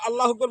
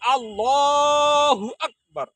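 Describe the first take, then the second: First: The phrase is said quickly. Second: The phrase is said slowly. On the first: The speaker calls it wrong. "দ্রুত আল্লাহু আকবার বলে তাকবীর দেয়, কিন্তু আসলে আল্লাহু আকবারটা সঠিক হবে না" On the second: The speaker calls it right. "বলতে হবে আল্লাহু আকবার"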